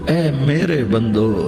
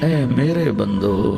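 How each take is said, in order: The two takes are said the same way.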